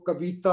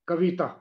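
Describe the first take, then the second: First: The vowel after v is fully long. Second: The vowel after v is short but leans long. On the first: "थोड़ा सा आगे चले जाएं तो कविता हो जाएगा" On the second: "वास्तव में इसका उच्चारण है कविता"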